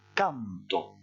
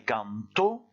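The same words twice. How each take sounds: First: The stress is on the first syllable. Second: The stress is on the last syllable. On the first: I sing, in the present. "vous insistez plutôt sur le A" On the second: He sang, in the simple past. "en insistant sur le dernier O"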